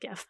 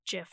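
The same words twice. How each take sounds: First: The word begins with a hard G sound. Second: The word begins with a soft J sound. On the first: "not GIF" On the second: "I say GIF, I just prefer GIF because, I don't know, I'm a fan of giraffes"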